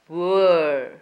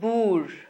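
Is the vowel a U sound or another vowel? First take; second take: U sound; another vowel. First: The vowel is the U sound. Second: The vowel is not the U sound. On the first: The speaker calls it right. "but boor" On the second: The speaker calls it wrong. "not boor"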